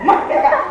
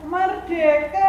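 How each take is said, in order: First: It is shouted loudly and forcefully. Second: It is said weakly and quietly.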